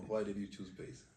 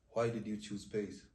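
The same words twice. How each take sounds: The two takes are said the same way.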